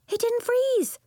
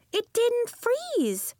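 First: High, loud joyful shout; a girl yelling in triumph; excited yell. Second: High, slow, savoring the win; a girl repeating her triumph slowly; drawn-out delight. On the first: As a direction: cry it out in delight. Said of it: "yelled Nori". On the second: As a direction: stretch it out in happy disbelief. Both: A narrator's reading.

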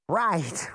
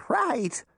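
First: First "Right," a touch higher than the narrator; a hint of the witch, easing into agreement. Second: Second "right," jumps much higher and quick; the witch hastily agreeing, much higher; hurried witch voice. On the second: Acted. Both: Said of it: "the witch said".

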